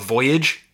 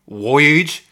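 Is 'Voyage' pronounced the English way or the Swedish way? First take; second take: English; Swedish. First: It is pronounced the usual English way. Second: It is pronounced the way Swedes might.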